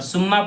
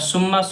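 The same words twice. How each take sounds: First: The word begins with a plain s sound. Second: The word begins with an emphatic s sound. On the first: "सुम्मा पढ़ेंगे ... तो गलत हो जाएगा" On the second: "सुम्मा स्वाद से पढ़ेंगे तो गलत हो जाएगा"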